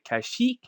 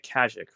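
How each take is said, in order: First: The last syllable is said like 'yeek'. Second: The last syllable is not said like 'yeek'.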